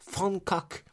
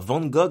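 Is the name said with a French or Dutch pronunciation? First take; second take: Dutch; French. First: It is said with a Dutch pronunciation. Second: It is said with a French pronunciation.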